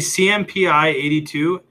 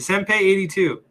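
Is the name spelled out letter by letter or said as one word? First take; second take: letters; one word. First: The name is spelled out letter by letter. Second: The name is said as one word. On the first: The speaker calls it wrong. "I always say CMPI 82" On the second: The speaker calls it right. "just pronounce it Senpai"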